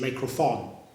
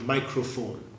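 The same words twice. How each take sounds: First: The word is pronounced with a slip. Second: The word is pronounced in the usual way. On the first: The tongue slips on the word. The speaker calls it wrong. "but you actually say microphone" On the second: This is the word the speaker intends. The speaker calls it right. "want to say a word like microphone"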